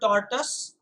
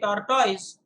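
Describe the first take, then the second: First: The word is not pronounced as it is spelled. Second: The word is pronounced just as it is spelled. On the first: "I personally prefer tortoise" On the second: "if you say tortoise on the basis of the spelling"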